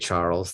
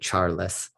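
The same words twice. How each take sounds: First: The name is said with an English accent. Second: The name is said with a Spanish accent. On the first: "they don't say Charles" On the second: "they would say Charles"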